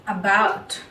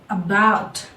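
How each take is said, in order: Both takes have the same delivery.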